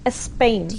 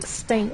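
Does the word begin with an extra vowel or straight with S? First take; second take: extra vowel; straight S. First: A short vowel is added before the S. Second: The word starts directly with the S sound. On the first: "We would say we would say Spain" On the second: "instead of the S di- directly"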